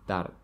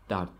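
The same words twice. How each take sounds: Both takes have the same delivery.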